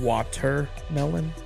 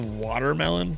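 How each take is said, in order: First: The t is said as a clear t. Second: The t sounds like a soft d. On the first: "instead of saying watermelon" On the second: "I pronounce T as a D"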